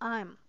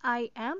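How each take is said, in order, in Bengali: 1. এটি একটি সংকুচিত শব্দ হিসেবে বলা হয়। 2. এটি দুটি পূর্ণ শব্দ হিসেবে বলা হয়। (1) "this is আই এম" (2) "not আই অ্যাম"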